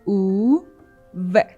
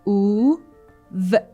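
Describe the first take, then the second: First: The two sounds are said separately with a pause. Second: The two sounds are said separately with a pause.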